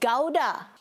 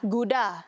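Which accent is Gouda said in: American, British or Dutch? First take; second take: British; American. First: The word is said in a British accent. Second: The word is said in an American accent. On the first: "Tapi kalau di Britain" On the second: "kalau di Amerika lah"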